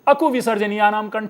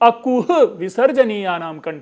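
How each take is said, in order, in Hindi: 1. 'ku' के बाद h की ध्वनि नहीं आती। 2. 'ku' के बाद एक स्पष्ट h की ध्वनि आती है। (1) "ह गायब हो गया" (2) "कु के बाद स्पेशली मैं ह के उच्चारण के लिए कितना प्रयत्नशील हूं"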